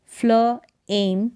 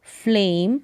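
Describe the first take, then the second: First: Slow फ्ल एम in two parts; sounded out. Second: Said in the usual way. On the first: Shown as a demonstration. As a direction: separate फ्ल from एम. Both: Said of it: "फ्ल होगा".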